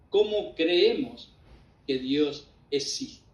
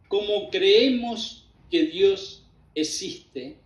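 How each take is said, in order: First: It is said with a questioning tune. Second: It is said flatly, like a statement.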